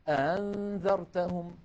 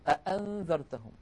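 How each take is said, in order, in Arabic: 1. الهمزة الثانية مخففة ومسهّلة. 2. كلتا الهمزتين تُنطقان كاملتين وواضحتين. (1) "وتارة يسهلونها فيقولون" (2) "بدلا من أن يقولوا"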